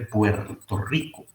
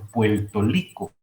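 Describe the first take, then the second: First: The r in Puerto sounds like an r. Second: The r in Puerto sounds like an l.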